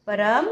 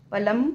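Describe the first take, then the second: First: Said in the usual way. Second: पलम with an L sound in place of the R. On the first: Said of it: "पलम". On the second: Real, not acted.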